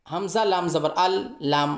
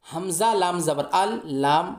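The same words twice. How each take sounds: The two takes are said the same way.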